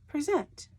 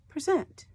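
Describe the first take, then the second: The two takes are said the same way.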